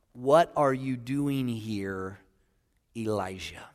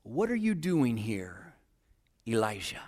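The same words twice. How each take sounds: First: Slow, soft, hushed question; quiet voice of God. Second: Whisper of God. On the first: Preacher voicing God's question, slow and hushed. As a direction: ask it gently and slowly. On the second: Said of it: "his voice came in a whisper". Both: Acted.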